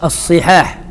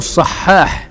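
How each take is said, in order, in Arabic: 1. أول حركة ليست الفتحة. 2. يوجد حرف مُشدَّد في الكلمة. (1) "نطقوه على غير ما أراد المؤلف" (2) "هكذا بالتشديد"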